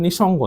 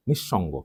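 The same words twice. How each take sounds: First: নিঃসঙ্গ with a single short sh; undoubled consonant in নিঃসঙ্গ; wrong pronunciation demo. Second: নিঃসঙ্গ with doubled, held sh; lower, softer nish-shongo for নিঃসঙ্গ; correct pronunciation demo. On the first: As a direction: run নিঃসঙ্গ through without doubling the sh. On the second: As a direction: hold the middle sh in নিঃসঙ্গ. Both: Shown as a demonstration. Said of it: "এটা নিঃসঙ্গ না".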